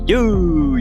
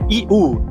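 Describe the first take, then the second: First: It starts with a tight y glide. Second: It starts with a separate ee vowel. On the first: The speaker calls it right. "é You" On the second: The speaker calls it wrong. "não é I U"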